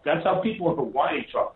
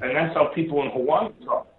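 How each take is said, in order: First: Insist, weight on "how"; stress on how. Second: Said in the usual way. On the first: Shown as a demonstration. Repeating his point to the host, stress on "how". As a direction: lean on the word "how".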